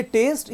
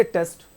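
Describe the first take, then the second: First: टेस्ट said long, as 'taste'; टेस्ट with a held long vowel; drawn-out vowel. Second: टेस्ट cut short, as 'test'; टेस्ट with a quick short vowel. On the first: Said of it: "sound को खींचना नहीं है". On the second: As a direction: keep the E of टेस्ट brief and open. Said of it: "तो कम खींचता है". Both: Shown as a demonstration.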